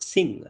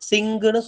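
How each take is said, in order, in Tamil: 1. இந்தச் சொல் ng ஒலியிலேயே சுத்தமாக முடிகிறது. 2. இந்தச் சொல் ng-க்குப் பிறகு ஒரு கூடுதல் உயிரெழுத்துடன் முடிகிறது. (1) "இது மீன்ஸ் சிங்" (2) "எப்படி சொல்லுவோம்னா சிங்குன்னு சொல்லுவோம்"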